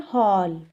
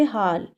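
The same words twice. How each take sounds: First: हॉल with an open rounded aw, hawl; rounded aw vowel. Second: हाल with a plain open aa, like haal; plain aa vowel. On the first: Teacher contrasting haal with the English vowel. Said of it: "अब हम इसे कैसे पढ़ रहे हैं". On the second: Teacher showing how it reads without the mark. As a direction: say हाल with the ordinary Hindi aa. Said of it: "अगर हम इसे सिंपल पढ़ते". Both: Shown as a demonstration.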